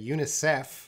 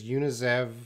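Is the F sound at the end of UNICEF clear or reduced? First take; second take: clear; reduced. First: The final F sound is clearly pronounced. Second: The final F sound is reduced and blended. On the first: The speaker calls it right. "in English we say UNICEF" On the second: The speaker calls it wrong. "he kind of says UNICEF"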